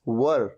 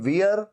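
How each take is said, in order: First: It is said with a short 'ur' vowel. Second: It is said with an 'eer' vowel. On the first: The speaker calls it right. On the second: The speaker calls it wrong. "ये वियर"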